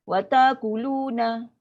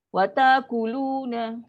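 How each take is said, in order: Both takes have the same delivery.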